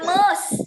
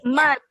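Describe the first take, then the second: First: The word ends without a t sound. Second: The word ends with a clear t sound. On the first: The speaker calls it wrong. "Bukan mus" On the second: The speaker calls it right. "must ada t-nya"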